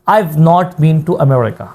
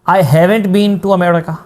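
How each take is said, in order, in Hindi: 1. Have छोटा होता है; not पूरा बोला जाता है। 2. Have पूरा बोला जाता है; not छोटा होता है। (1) "एक में हैव पूरा नहीं बोलेंगे, आई बोलेंगे, आई के साथ अपोस्ट्रोफी और वी ई लगा लेंगे, और साथ में फिर आप नॉट पूरा बोलेंगे।" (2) "एक में हैव पूरा बोलेंगे, सही है, साथ में आप एन लगा के अपोस्ट्रोफी और टी लगा लेंगे।"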